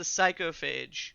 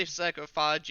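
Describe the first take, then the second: First: Psychophage ending like "fayj"; preferred pronunciation. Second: Psychophage ending like "fahj"; alternative pronunciation. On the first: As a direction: say Psychophage with a long A at the end, slowly. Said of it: "It's the Psychophage". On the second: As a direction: say Psychophage with an "ah" in the last syllable. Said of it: "you can say Psychophage if you want". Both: Shown as a demonstration.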